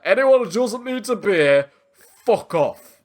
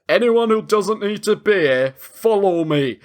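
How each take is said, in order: First: Put-on Northern accent, punch "fuck off" hard; lightly Northern, lean on "fuck"; stress on fuck. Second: Lightly imitated Northern English accent; a hint of a gruff Northern commander. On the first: Joking Sean Bean rewrite, stressed "fuck off". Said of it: "he puts so much emphasis on the F". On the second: Retelling Sean Bean's line, light Northern accent. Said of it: "he's in a very Northern accent".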